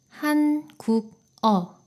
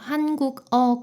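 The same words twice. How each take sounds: First: Each syllable is said separately and choppily. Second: The final consonant links smoothly into the next syllable. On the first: The speaker calls it wrong. "따로 한자씩 읽으면 이렇게 되겠죠?" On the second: The speaker calls it right. "받침이 이응 자리로 이동해서 발음이 됩니다"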